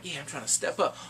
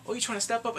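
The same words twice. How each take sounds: First: Said in the usual way. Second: Higher, questioning comeback; mocking challenge. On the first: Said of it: "the guy that did, he's like". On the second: Boss answering the guy stepping up, higher mocking challenge. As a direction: throw the boast back as a challenge. Mocking reply in acted exchange.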